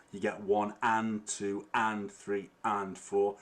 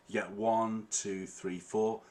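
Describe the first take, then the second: First: Slow count, each "and" leaned on between "one", "two", "three", "four"; teacher counting out the offbeat, stressing "and". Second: Said in the usual way. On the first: Shown as a demonstration. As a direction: count it slowly and lean on every "and". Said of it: "The and is sort of the offbeat". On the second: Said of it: "if you're not sure what the offbeat is".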